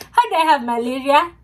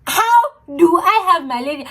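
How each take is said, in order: First: Said in the usual way. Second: Higher, louder disbelieving question; incredulous. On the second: Retold or imitated. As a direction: press harder in disbelief. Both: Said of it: "repeats with more disbelief".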